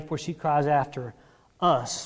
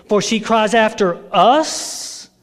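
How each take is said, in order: First: Said in the usual way. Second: "us" drawn out loudly in a rising question; slow, loud challenge landing on "us"; incredulous echo. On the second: Retold or imitated. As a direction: question the word "us" in disbelief. Mocks disciples making it about themselves.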